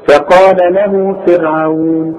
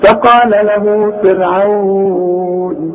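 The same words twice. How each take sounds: First: The long vowel is held for two counts. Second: The long vowel is held for four counts. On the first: "حركتين" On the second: "أربعة"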